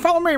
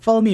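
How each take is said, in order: First: It is said in a put-on character voice. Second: It is said in the speaker's normal voice.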